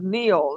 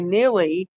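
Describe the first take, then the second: First: The name is said as one syllable. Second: The name is said with an extra final syllable. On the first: The speaker calls it right. "it sounds as Neil" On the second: The speaker calls it wrong. "a lot of people call it, say Neely"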